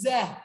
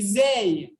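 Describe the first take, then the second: First: The vowel is a short, plain 'eh'. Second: The vowel glides like 'ay'. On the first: The speaker calls it right. "This is ze, almost like Z E H" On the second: The speaker calls it wrong. "If it was a tzere, it would be zay. But this is not zay"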